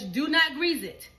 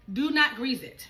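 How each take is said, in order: First: NOT hit loud and slow; stress on NOT. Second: NOT stressed, a bit quicker; stress on NOT again. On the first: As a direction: Do not grease it with NOT punched. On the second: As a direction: Do not grease it, NOT firm. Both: Shown as a demonstration.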